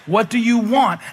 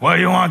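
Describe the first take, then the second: First: It is said in a gentle, inviting tone. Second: It is said in an annoyed, dismissive tone.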